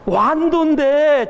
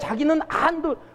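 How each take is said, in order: First: The word begins with a w glide. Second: The word begins without a w glide. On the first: The speaker calls it right. "안도가 아니라 완도예요" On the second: The speaker calls it wrong. "진짜 발음이 안 되는 거예요"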